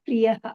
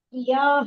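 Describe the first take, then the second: First: The vowel after 'pri' is kept short. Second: The vowel after 'pri' is drawn out long. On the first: The speaker calls it right. "ಅಲ್ಲಿ ದೀರ್ಘ ಇಲ್ಲ" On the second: The speaker calls it wrong. "ಇಲ್ಲ"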